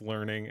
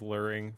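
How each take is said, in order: First: The word sounds like standard 'learning'. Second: The word sounds like 'luring'. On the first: "pronounce learning" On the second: "as luring"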